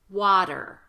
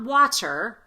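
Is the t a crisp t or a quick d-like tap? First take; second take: tap; crisp t. First: The t is a quick d-like tap. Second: The t is a crisp, released t. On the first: The speaker calls it right. "this T" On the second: The speaker calls it wrong. "Not water"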